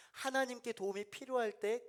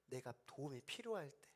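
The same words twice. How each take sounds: First: "하나님께" pushed higher and louder, rising at the end; emphatic repeat. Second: Softer first take. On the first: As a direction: stress "하나님께" with a lifted voice. ("하나님께"를 높고 크게 힘주어) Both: Shown as a demonstration.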